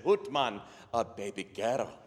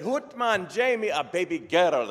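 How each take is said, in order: First: Scottish brogue settling back down; deflated Scottish echo of the news; Scottish father's reply. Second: High, booming Scottish brogue; Scottish doctor's announcement. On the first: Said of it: "And Jamie said". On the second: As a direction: call out the birth in broad Scots. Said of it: "And the doctor said". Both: Acted.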